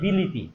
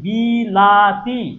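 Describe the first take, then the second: First: The middle vowel is an 'i' sound. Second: The middle vowel is an 'a' sound. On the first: "তুমিও রস্বীকার হয়ে যাও" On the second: "মাঝখানেরটা কি আছে আকার"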